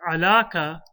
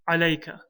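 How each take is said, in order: First: The word is said without a y sound. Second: The word is said with a y sound. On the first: The speaker calls it wrong. "we won't say alaka" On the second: The speaker calls it right. "we'll say alayka"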